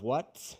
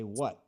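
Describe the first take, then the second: First: The final T is clearly released. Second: The final T is swallowed, not released. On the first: The speaker calls it wrong. "Instead of what" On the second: The speaker calls it right. "we need to eat that T"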